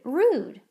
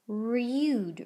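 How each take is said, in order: First: The vowel sounds like 'oo', without a y-glide. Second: The vowel sounds like 'you', with a y-glide. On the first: The speaker calls it right. "Let me try it with the used nickname instead" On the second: The speaker calls it wrong. "That doesn't seem right"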